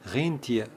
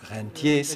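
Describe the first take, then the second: First: It is pronounced the German way. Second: It is pronounced the French way. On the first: It means reindeer. The speaker calls it wrong. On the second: It means people living off investment returns. The speaker calls it right.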